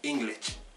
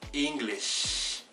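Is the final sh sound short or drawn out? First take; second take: short; drawn out. First: The final sh sound is short. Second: The final sh sound is long and drawn out. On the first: The speaker calls it wrong. "El inglés no se pronuncia English" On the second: The speaker calls it right. "tiene que ser más alargado"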